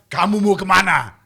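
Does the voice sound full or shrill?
full. The voice is full and menacing. A dubbed voice replaces the actor's own. "pas di, di dubnya, kamu mau kemana? Beda"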